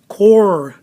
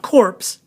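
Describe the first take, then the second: First: The final p and s sounds are silent. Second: The final p and s sounds are pronounced. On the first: The speaker calls it right. "Core is how we say this" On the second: The speaker calls it wrong. "not corpse"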